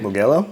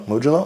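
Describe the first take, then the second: First: Mugello with a hard G, "moo-GHEL-oh"; hard-g pronunciation. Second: Mugello with a soft G, "MOOJ-uh-loh"; soft-g pronunciation. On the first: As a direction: try Mugello with a hard G, as a question. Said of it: "I think is how they say it". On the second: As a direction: try Mugello with a soft J sound, as a question. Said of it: "I don't know". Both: Shown as a demonstration.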